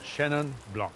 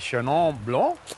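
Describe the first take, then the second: First: It is said with a mild, anglicised accent. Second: It is said with a strong French accent. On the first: "You've got it down" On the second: "be more French, but that would be too accented"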